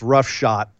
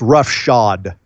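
First: The word ends with a t sound. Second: The word ends with a d sound. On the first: The speaker calls it wrong. "if anyone else says rough shot like Adam Cole likes to do" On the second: The speaker calls it right. "Roughshod is the proper way of saying that"

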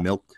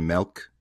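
First: It is said in a plainer, less regional accent. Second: It has a strong Midwestern accent. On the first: This is the usual way to say it. "instead of milk" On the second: This is how relatives from the Midwest say it. "they'll say milk"

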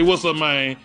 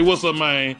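First: It sounds like a hostile, threatening challenge. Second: It sounds like a hostile, threatening challenge.

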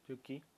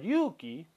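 First: The first vowel is short. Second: The first vowel is held long. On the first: It means snow. "sin estiración" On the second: It means courage. "estamos hablando de valor o coraje"

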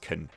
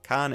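First: The word is reduced with a weak vowel. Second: The word is said in full with a clear vowel. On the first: The speaker calls it right. "it's can" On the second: The speaker calls it wrong. "so it's not can"

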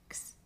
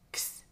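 First: The x is sounded relaxed as g plus s. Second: The x is sounded emphatically as k plus s. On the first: "Si lo pronunciamos de manera más relajada, es más como una G y S juntas" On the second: "si pronunciamos de manera más enfática... Es el sonido de la K y de la S juntas"

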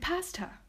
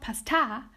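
First: The word ends in a weak, reduced 'uh' vowel. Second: The word ends in a full, clear 'ah' vowel. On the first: The speaker calls it right. "but pasta. Pasta with that schwa at the end" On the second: The speaker calls it wrong. "It's not pasta"

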